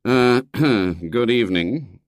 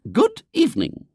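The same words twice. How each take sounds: First: Slow, hesitant greeting with throat-clearing; reluctant father. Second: Very high, formal lady's greeting; prim lady visitor. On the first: Father greets unwelcome visitor, reluctant and slow. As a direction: stall awkwardly before greeting. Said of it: "Mister Brown groaned inwardly". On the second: Visitor greets William's father, prim and high. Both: A narrator's reading.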